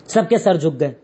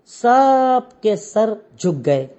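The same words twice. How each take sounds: First: Lower, falling close; low falling repeat. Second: Very slow, drawn-out words; slow dramatic telling. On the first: Teacher to class, repeating the line in a lower, falling voice. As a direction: drop the voice to seal the moment. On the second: Teacher to class, slowly drawn-out retelling. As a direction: linger on each word to let the shame sink in. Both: Shown as a demonstration.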